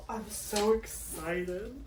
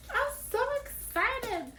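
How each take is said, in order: First: Soft, slow, drawn-out thrill; hushed excitement. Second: Tiny, very high, soft squeal; excited squeal. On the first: Vlogger about to open her kit, quietly thrilled. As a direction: savour it quietly, stretching the words. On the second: Vlogger about to open her kit, softly squealing with excitement. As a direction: squeak it out slowly, barely containing it. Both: Real, not acted.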